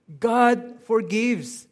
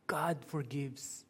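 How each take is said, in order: First: Loud, high, slow declaration; ringing, drawn-out preacher's emphasis; triumphant proclamation. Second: Soft, slow statement; hushed, unhurried reassurance; quiet assurance. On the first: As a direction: proclaim it as good news. Preacher proclaims the good news. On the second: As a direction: let it land gently and slowly. Same words, said softly after lament. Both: Real, not acted.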